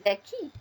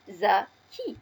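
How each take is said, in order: First: Said in the usual way. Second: "zaki" slowly in two separate syllables, za, ki; teacher's syllable-by-syllable "zaki"; split into syllables. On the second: Shown as a demonstration. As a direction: sound out "zaki" with a clear pause between za and ki. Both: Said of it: "L'association de ces deux syllabes".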